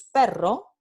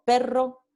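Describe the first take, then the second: First: Perro with a rolled double r; trilled r. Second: Perro with a long rolled rr; trilled r. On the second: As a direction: roll the rr in perro. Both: Shown as a demonstration. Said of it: "el par mínimo pero versus".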